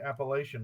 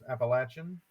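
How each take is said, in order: First: The middle syllable sounds like 'lay'. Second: The middle syllable sounds like 'latch'. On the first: The speaker calls it wrong. "If you say Appalachian, we'll throw in Appalachia" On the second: The speaker calls it right. "it is pronounced Appalachian"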